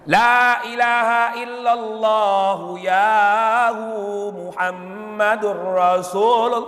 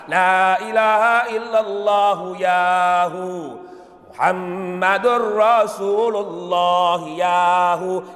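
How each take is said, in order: First: It runs on in one breath without stopping. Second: It stops after yahu to take a breath. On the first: "dibacanya satu napas, tidak berhenti" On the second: "berhenti dengan arti ganti napas"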